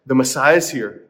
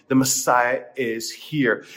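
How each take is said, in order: First: Said in the usual way. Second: Slow, weighty declaration; awed, drawn-out announcement; slow proclamation. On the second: Acted. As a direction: let each word land slowly. Proclaiming the Messiah slowly.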